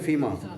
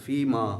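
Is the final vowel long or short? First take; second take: short; long. First: The final vowel is kept short. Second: The final vowel is drawn out long. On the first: "और इसे फ़ीमा जी" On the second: "अलिफ जब होगा ना उससे ज़रा थोड़ा सा एक ज़बर के बराबर ज़्यादा खींच के पड़ता है"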